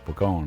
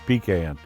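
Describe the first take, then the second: First: It uses the Louisiana pronunciation of the word. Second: It uses the Georgia pronunciation of the word. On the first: This is how locals say it. "We say pecan over here" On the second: This is how people elsewhere say it. "In Georgia, they say pecan"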